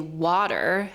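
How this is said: American accent with a smooth, flowing pitch. "has like this very natural flow to it"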